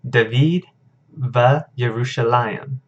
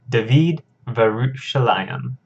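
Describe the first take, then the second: First: The conjunction stays separate before the name. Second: The conjunction's vowel merges into the name. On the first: The speaker calls it wrong. "I mispronounced this one as well" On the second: The speaker calls it right. "our vowels kind of merge together"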